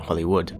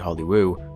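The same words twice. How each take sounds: First: The word ends with a final d sound. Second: The word ends without a final d sound. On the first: This is the usual name of the place. "not Hollywood" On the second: The letter D was stolen from the sign. "I did say Hollywood"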